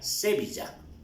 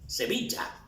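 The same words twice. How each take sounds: First: The stress falls off the middle syllable 'vi'. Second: The stress is on the middle syllable 'vi'. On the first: The speaker calls it wrong. "si no aplicamos la mayor fuerza de voz sería Sevilla. Que no tiene razón de ser" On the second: The speaker calls it right. "La mayor fuerza de voz es en vi"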